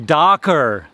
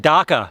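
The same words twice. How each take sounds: First: The final R sound is pronounced. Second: The final R sound is dropped. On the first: The speaker calls it right. "It should be darker" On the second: The speaker calls it wrong. "We don't use R's where we should, so we say darker"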